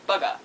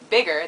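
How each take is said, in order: First: New Zealand "bugger" for bigger; New Zealand accent. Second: Said in the usual way. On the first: Shown as a demonstration. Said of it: "they say bugger". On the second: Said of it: "they don't say bugger, bigger".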